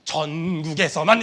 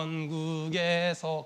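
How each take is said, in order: First: 전국에서만 slow, low and louder; louder, less dragged hymn delivery of 전국에서만; hymn line demo. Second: Very low, softer, dragging slow; slow, low hymn-like drawl on 전국에서; drawn-out hymn line. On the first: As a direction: push out 전국에서만 low, stretching the first syllable. Second take of the hymn line. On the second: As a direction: stretch 전국에서 out syllable by syllable, low and soft. Demonstrating how a hymn is sung. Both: Shown as a demonstration.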